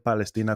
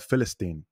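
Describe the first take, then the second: First: The word begins with a P sound. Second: The word begins with an F sound. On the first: "no dicen Palestina con P" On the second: "Con la F"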